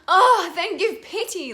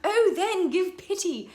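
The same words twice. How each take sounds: First: The opening 'O' is a pure open vowel. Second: The opening 'oh' is a casual spoken interjection. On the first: The speaker calls it right. "it really needs to be like, oh, it's just a vowel sound" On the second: The speaker calls it wrong. "So don't go"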